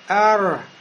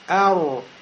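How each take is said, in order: First: An open mouth gives the r an a-like ending. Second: Rounded lips give the r a u-like ending. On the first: "если я рот приоткрою, пошевелю, да, у меня будет похоже на фатху" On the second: "я губы сейчас пошевелил, сделал кольцо, у меня сукун стал похож на домму"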